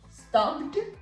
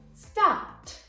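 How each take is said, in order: First: The ending is not a plain t sound. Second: The ending is a plain t sound. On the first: The speaker calls it wrong. "or we're not gonna say stopped" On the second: The speaker calls it right. "but we're gonna say stopped"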